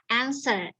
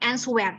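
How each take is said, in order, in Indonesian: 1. Bunyi w tidak dibunyikan setelah s. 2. Bunyi w diucapkan setelah s. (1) "W-nya nggak dibunyikan" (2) "jangan answer, salah"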